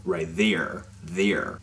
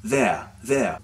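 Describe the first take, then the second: First: Lower-pitched American "there" with a very strong R. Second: British "there" with the R dropped; British accent. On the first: Teacher showing his own American accent, super strong R on "there". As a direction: hit the final R of "there" hard, American style. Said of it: "le même R super fort". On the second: Teacher showing how Great Britain says it, British "there". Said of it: "en Grande-Bretagne, on va dire". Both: Shown as a demonstration.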